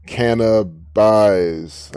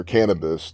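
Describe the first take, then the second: First: "Cannabis" drawn out slowly, ending like "buys"; drawn-out split pronunciation. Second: Said in the usual way. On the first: Shown as a demonstration. Splits word to reveal pun "buys.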